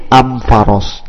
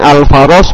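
First: The article is pronounced with an M sound. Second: The article is pronounced with an L sound. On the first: This is the Himyar tribe's dialect form. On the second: This is the common Arabic form.

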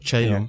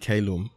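First: It begins with a ch sound, Vatican style. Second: It begins with a k sound, classical style.

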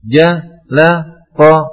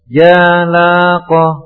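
First: The syllables are split by long breaks. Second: The syllables are split by short breaks. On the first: The speaker calls it wrong. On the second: The speaker calls it right. "diupayakan diputus dengan pendek"

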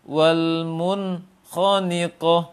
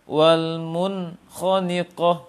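Both takes have the same delivery.

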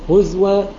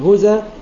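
First: The glottal stop is replaced by a w sound. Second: The glottal stop is dropped; its vowel moves back. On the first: "ومذهب رسمي بالإبدال" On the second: "مذهب قياسي بالنقل"

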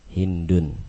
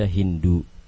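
First: The name ends with an n sound. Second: The name ends without an n sound. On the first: "maka dia boleh diberi tanwin"

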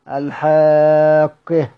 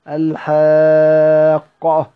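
First: The final vowel is tilted toward an e sound. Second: The final vowel is an open a sound. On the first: "ومرة بالإمال" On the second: "مرة بالفتح"

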